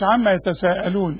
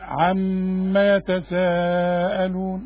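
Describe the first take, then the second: First: The m sound is short, without a held nasal hum. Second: The m sound is held with a nasal hum. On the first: The speaker calls it wrong. "مش عما يتساءلون" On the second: The speaker calls it right. "الميم دي لازم تغنى"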